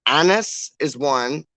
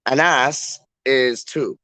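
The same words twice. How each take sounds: First: Anas said slowly as AN-is; first-syllable stress. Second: Anas said slowly as a-NASS; second-syllable stress. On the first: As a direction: stress the start of Anas and weaken its second vowel. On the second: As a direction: stress the end of Anas with a full, long NASS. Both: Shown as a demonstration. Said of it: "I wanna pronounce it properly".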